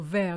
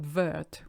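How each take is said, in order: First: The final T is silent. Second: The final T is sounded. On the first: The speaker calls it right. "you don't pronounce your last T" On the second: The speaker calls it wrong. "not vert, which is what I hear all the time"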